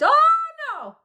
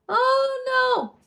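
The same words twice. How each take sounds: First: It is said loudly with strong projection. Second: It is said loosely without any projection. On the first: The speaker calls it right. "here I want to project" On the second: The speaker calls it wrong. "You don't usually just relax and be like"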